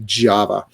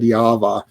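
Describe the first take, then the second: First: The name is pronounced the English way. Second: The name is pronounced the Croatian way. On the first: "I think it might be Java" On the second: "I am uh, uh, Croatian, so we would have said Java for this one"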